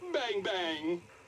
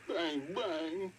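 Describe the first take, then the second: First: It is said in a happy tone. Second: It is said in a sad tone.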